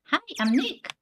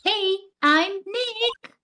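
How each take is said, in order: First: It is said quietly. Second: It is said loudly.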